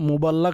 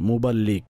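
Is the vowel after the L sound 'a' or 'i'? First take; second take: a; i. First: The vowel after the L is 'a'. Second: The vowel after the L is 'i'. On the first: The speaker calls it wrong. "লামের উপর জবর নয়" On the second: The speaker calls it right. "লামের নিচে জের, মুবাল্লিগ। সঠিক উচ্চারণ হচ্ছে এটা।"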